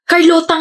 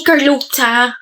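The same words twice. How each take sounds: First: "Carlota" said with a clear rolled r and a plain t, stress on lo; correct name. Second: "Carlota" said as "Karluchya", English r, o turned to u, t turned to ch; mocking his pronunciation. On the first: Shown as a demonstration. Correcting Pablo on how to say her name, "Carlota" with a rolled r and plain t. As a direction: say "Carlota" properly, the r rolled and the t clean. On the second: Mimicking how Pablo mangles her name, "Carlota" as "Karluchya". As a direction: imitate the wrong "Carlota", with the r softened and the t made ch.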